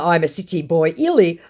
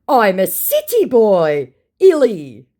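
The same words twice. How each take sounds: First: Said in the usual way. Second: Slow, high, loud brag; mock boastful scammer. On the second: Scammer proud of being a city boy, mock boastful. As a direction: swell the boast in a put-on voice.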